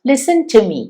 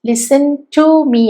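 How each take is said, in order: First: The word 'to' is reduced to a weak form. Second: The word 'to' is said in full. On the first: The speaker calls it right. "ടു മാത്രമാണ് ഞാൻ പറയുന്നത്" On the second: The speaker calls it wrong. "അല്ല"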